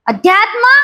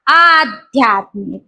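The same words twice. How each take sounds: First: अध्यात्म on a short अ, rising; short opening a. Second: Slow, low आध्यात्मिक on a long आ; long opening aa. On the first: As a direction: keep अध्यात्म's first vowel short. (अध्यात्ममध्ये ऱ्हस्व अ) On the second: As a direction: draw out the आ that opens आध्यात्मिक. (आध्यात्मिकमध्ये दीर्घ आ) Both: Shown as a demonstration. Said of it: "आध्यात्मिक होताना तिथं काय होतो?".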